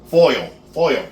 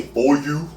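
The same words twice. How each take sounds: First: "Foil" carefully re-said, ending in an L; corrected pronunciation. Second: "foil" drawn out Philly-style as foy-you; Philly accent. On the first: Cook corrects own Philly slip, "Foil" said carefully with an L. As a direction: say "Foil" higher, as foy-ul, twice. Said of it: "Did I say foil?". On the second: Cook catches own slip, "foil" in Philly accent as foy-you. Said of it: "about my Philly accent". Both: Shown as a demonstration.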